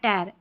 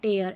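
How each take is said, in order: First: The vowel is a short single 'er'. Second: The vowel glides like 'ay-er'. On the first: "टैर ऐसे भी पढ़ सकते हैं" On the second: "टेयर ऐसे"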